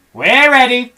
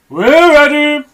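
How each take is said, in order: First: High loud eager cry; eager reply. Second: Higher, louder bird chorus; birds' eager reply. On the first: Monkeys answer Mugglewump, high and eager. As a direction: answer like keen little monkeys. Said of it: "said the monkeys". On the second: Birds answer Mugglewump, high and eager. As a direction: chirp it back even higher. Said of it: "said the birds". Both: Acted.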